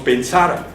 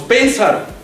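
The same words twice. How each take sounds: First: The stress is on the middle syllable. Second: The stress is on the first syllable. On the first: "tampoco decimos pensar" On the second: "no decimos pensar"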